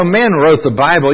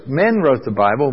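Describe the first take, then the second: First: Mocking skeptic. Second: Said in the usual way. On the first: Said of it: "people say all the time".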